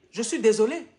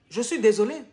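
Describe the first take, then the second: No difference in how they are said.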